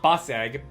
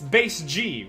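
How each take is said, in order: First: The first syllable sounds like 'bus'. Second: The first syllable sounds like 'base'. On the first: The speaker calls it wrong. "it's not bus egg" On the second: The speaker calls it right. "but it's base G, right"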